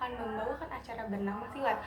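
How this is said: The pitch rises and falls throughout. The delivery makes the audience interested. The speaker calls it right. "itu baru bener tuh karena ada naik turunnya"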